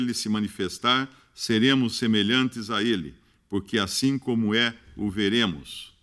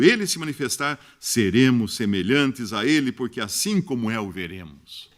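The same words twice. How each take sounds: First: It is read in a flat, robotic computer voice. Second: It is read in a lively, natural human voice.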